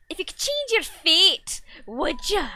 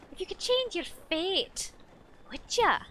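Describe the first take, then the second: First: Put-on slow, loud, higher Scottish accent; big dramatic Scottish movie line. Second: Put-on a lighter, higher Scottish accent. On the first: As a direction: belt it out in a hammed-up Scottish accent. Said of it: "quote ever in the Scottish accent". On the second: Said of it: "the Scottish accent".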